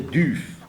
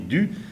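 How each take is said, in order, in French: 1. Le mot se termine par un son f. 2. Le mot se termine par une voyelle simple. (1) "en ancien breton et en moyen breton, on disait Duf" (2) "Actuellement, en breton moderne, on dit du"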